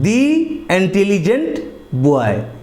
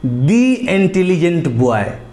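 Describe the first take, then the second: First: 'The' is said with a long 'ee' vowel. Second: The same.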